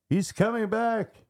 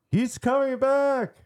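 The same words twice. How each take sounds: First: Very high-pitched mock scream. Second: Very high, louder mock scream. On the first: Narrator imitates possessed boy waking at night, screaming out. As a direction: cry out in a high, strained alarm. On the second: Narrator imitates possessed boy's second, louder cry, screaming out. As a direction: repeat the alarm louder and higher still. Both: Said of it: "started screaming out".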